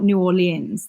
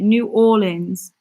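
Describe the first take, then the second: First: "New Orleans" with three syllables in "Orleans", "aw-lee-unz"; the mistaken "noo AW-lee-unz" for "New Orleans"; wrong pronunciation. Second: "New Orleans" said slowly as "noo AW-linz"; two-syllable "Orleans" in "New Orleans", drawn out; corrected pronunciation. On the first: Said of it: "That's wrong". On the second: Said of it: "Not, not New Orleans". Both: Shown as a demonstration.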